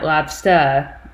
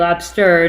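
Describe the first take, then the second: First: It is said in an attempted Boston accent. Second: It is said in a plain non-Boston accent. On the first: This is how Boston speakers say it. "I can't even say it like a Boston accent" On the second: This is how the speaker normally says it. "I say lobster"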